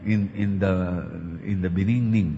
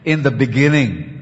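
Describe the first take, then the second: First: The second syllable starts with an n sound. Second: The second syllable starts with a g sound. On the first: The speaker calls it wrong. "hindi niya maipronounce yung in the beninging" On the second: The speaker calls it right. "hindi po niya talaga na-pronounce na maayos yung in the beginning"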